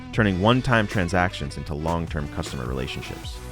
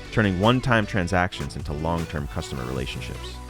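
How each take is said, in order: Both takes have the same delivery.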